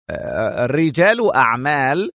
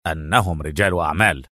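First: Incredulous echo, rising; wary disbelief. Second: Low, emphatic announcement; restrained enthusiasm. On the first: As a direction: repeat it as a doubtful question. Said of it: "ردد هانز في حذر مستنكر". (بحذر مستنكر) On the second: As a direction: present the answer eagerly in a deep voice. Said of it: "هتف نيكولاس في حماس". (بحماس مكتوم) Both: A narrator's reading.

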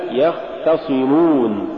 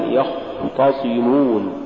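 First: يختصمون with moderate khaa and a light T; correct khaa. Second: يختصمون with khaa and T darkened towards o; over-heavy khaa. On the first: Tajweed teacher giving the example, correct khaa. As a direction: keep the T of يختصمون thin. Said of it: "مثال". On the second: Tajweed teacher showing the mistaken reading, over-heavy khaa. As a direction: thicken the start of يختصمون. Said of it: "تقرأ لحنا". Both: Shown as a demonstration.

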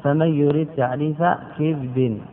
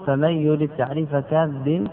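First: "كبد" as kibdin, i on the kaf; "كبد" said kib-din; kibd reading. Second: "كبد" as kabdin, a on the kaf; "كبد" said kab-din; kabd reading. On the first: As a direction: end on "كبد" with kasra on kaf, no vowel on ba. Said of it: "بكسر الكاف". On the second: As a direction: end on "كبد" with fatha on kaf, no vowel on ba. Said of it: "يجوز أن تقول". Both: Shown as a demonstration.

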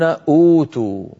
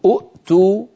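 First: أوتوا with a long smooth uu at the start; long waw. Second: أؤتوا as u', a glottal stop, then tu; two hamzas. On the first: Teacher showing what Arabs say, first vowel held long. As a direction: stretch the first vowel of أوتوا, no glottal break. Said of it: "يقولون أوتوا". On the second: Teacher showing the avoided form, glottal break after first vowel. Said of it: "فبدل من أن يقولوا". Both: Shown as a demonstration.

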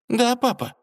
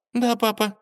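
First: High, curt reply again; curt princess. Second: High, curt reply; clipped dismissal to her father; curt princess. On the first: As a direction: brush him off tersely. Дочь отмахивается от отца. (коротко, отстранённо) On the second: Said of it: "коротко сказала". (коротко, сухо) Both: Acted.

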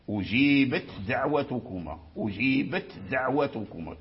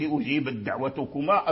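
First: أجيبت ending in a clear voiceless ت before دعوتكما; clear ta, right. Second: أجيبت run into دعوتكما with no ت heard; wrong, merged. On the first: Teacher giving the correct clear reading of أجيبت دعوتكما. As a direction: sound the ت of أجيبت, then a light د. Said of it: "تبين التاء ساكن". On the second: Teacher showing the merged mistake in أجيبت دعوتكما. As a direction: blend the ت of أجيبت into the د. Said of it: "أدغمت". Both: Shown as a demonstration.

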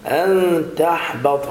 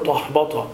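First: تحبط slowly, thin "tah-bata", heavy only on ط; light ta and ha. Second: تحبط with dark, thick "tah", like "tohbata"; heavy-ha mistake. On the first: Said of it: "حاء مرققة". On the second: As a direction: imitate the error, thickening ت and ح in تحبط. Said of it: "لا تقل". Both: Shown as a demonstration.

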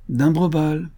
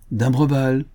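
First: Higher, insistent second call; second hail, more urgent; calling out again. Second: Raised, higher call; hailing a friend from a distance. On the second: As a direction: call his name across the beach. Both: A narrator's reading. Players call out his name.

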